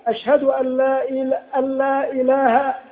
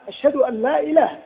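First: The long vowel in ilah is greatly drawn out. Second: The long vowel in ilah has normal length. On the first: The speaker calls it wrong. "المد المبالغ فيه في إله" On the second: The speaker calls it right. "دون أن يمد الألف مدا زائدا في إله"

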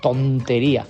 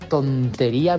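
First: The first syllable with the T is strongly emphasized. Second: The word is said with no extra emphasis.

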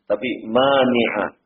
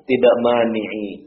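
First: The word ends with the vowel a. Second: The word ends with the vowel i. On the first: The speaker calls it right. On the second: The speaker calls it wrong.

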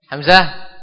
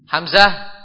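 No difference in how they are said.

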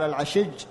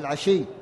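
First: The word ends with a j sound. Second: The word ends with a y sound. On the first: This is the dialect form of the word. "هو قال العشج" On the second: This is the standard form of the word. "يعني العشي"

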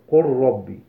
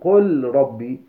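First: The L is merged fully into the R. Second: The L is pronounced separately before the R. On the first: The speaker calls it right. "ولكن قل قل ربي" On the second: The speaker calls it wrong. "لا تقل قل ربي"

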